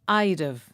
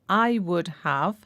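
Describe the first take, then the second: First: It is contracted, with the h of have dropped. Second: Each word is said fully and separately. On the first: "I and would are shortened to I'd, and we also drop the H from have" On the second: "I and would are shortened to I'd, and we also drop the H from have"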